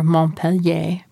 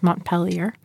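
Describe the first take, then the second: First: It is said with a French accent. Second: It is said with a local American accent.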